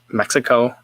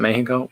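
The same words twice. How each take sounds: First: It is said the American way. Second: It is said a non-American way. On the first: "there's an American way"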